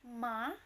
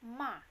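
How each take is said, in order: First: The pitch falls and then rises again. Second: The pitch stays high and level. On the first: "Nada melengkung dari turun kemudian naik lagi" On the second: "suara tinggi yang datar"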